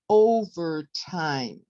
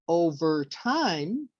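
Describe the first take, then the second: First: The stress falls on the first syllable. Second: The stress falls on a later syllable. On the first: The speaker calls it right. "it's on the first syllable" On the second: The speaker calls it wrong. "We don't say overtime, which changes the whole definition of the word"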